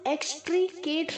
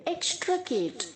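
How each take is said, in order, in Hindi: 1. दूसरे अक्षर में लंबा 'ee' स्वर है। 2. दूसरे अक्षर में छोटा 'i' स्वर है। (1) "एक्सट्रीकेट नहीं बोलेंगे" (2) "हाफ ई की तरह प्रोनाउंस करेंगे"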